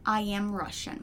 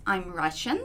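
First: "I am Russian" with I and am as separate words; full formal form. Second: I'm run together as one syllable, "I'm Russian"; contracted form. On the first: Teacher shows students the formal version, uncontracted I am. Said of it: "formal, digamos assim". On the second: Teacher shows students the short English form, contracted I'm. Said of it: "a gente contrai muita coisa". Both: Shown as a demonstration.

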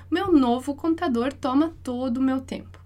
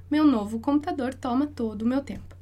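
The two takes are said the same way.

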